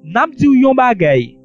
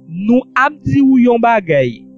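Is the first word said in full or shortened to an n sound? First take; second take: shortened; full. First: The pronoun is shortened to a single n. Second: The pronoun is said in full as nou.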